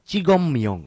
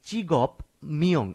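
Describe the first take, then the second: First: The consonant before myeong is an m sound. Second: The consonant before myeong is a p sound. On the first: The speaker calls it right. "বাচ্ছিমের বিয়োগটিকে ময়ের মতো উচ্চারণ করতে হয়" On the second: The speaker calls it wrong. "আমি চিগপ মিয়ং এভাবে বলছি না"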